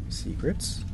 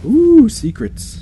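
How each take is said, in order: First: Soft rising question; quietly intrigued; curious question. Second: High, stretched-out ooh; intrigued, drawn-out excitement; playful delight. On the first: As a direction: ask it softly, pitch lifting. Finding a hidden area. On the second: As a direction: coo it high and slowly. Delight at hidden area. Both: Real, not acted.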